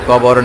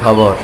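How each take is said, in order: First: The word starts with an unaspirated k sound. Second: The word starts with an aspirated kh sound.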